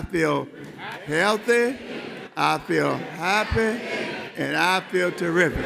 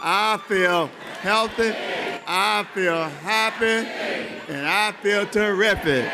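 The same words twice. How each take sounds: First: It is said a little louder. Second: It is said very loudly, with great energy.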